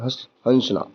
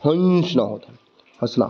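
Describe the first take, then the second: First: हंसना with the vowel pushed through the nose, हँसना; correct nasal hansna. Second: हंसना said with a plain h and no nasal sound; हंसना said the ordinary way, nasal vowel dropped; a careless everyday हंसना; plain hansna. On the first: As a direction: show the correct chandrabindu sound in हंसना. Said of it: "लेकिन सही उच्चारण क्या है". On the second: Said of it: "pronunciation करें तो". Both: Shown as a demonstration.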